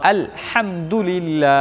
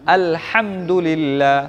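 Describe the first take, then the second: No difference in how they are said.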